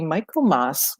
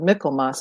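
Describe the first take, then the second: First: It is pronounced in a non-English way. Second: It is pronounced the way people in England do.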